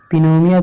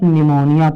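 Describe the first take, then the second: First: The word begins with a sounded P. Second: The word begins with an N sound. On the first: The speaker calls it wrong. "पिनोनिया थोड़ा पढ़ोगे" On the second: The speaker calls it right. "इसको आप निमोनिया पढ़ोगे"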